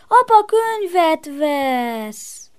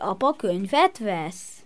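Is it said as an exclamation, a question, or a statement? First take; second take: exclamation; question. First: It is said with an exclaiming tune. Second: It is said with a questioning tune. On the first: The speaker is excited or glad about it. "meg felkiáltatod is" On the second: The speaker is asking whether it is true. "ezt kérdezheted is"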